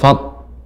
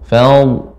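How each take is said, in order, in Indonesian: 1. Kata itu berakhir dengan bunyi 'd' saja. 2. Kata itu berakhir dengan bunyi 'dl' penuh. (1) "tidak fad"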